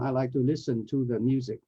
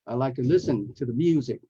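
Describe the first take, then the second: First: The words 'to the' are said fully and clearly. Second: The words 'to the' are quick and barely heard. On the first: The speaker calls it wrong. "it's not in my spare time" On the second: The speaker calls it right. "You can barely hear to the"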